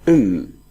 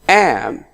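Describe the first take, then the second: First: The word is said with a reduced, weak vowel. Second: The word is said with a full, clear vowel. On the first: "I can use it like um" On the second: "I'm using the, stro the strong form of the word"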